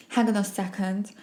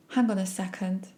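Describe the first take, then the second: No difference in how they are said.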